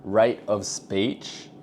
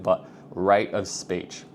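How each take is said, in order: First: Rate of speech, each word drawn right out; very slow. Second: Drawn out slowly; slowed down. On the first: Coaching viewers, demoing a very slow delivery. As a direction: crawl through the phrase. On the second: Coaching viewers, slowing down to stress a point. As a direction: stretch each word to land it. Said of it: "I was just doing it then". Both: Shown as a demonstration.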